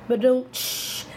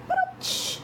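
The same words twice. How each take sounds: First: "Ba-dum, tsh" as a casual spoken drum hit; vocal rimshot. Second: "Ba-dum, tsh" breathed very high with no voice; a tiny whispered drum hit; "Ba-dum, tsh" as a thin airy cymbal sound; whispered high rimshot. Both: Shown as a demonstration. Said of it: "heard the drums playing".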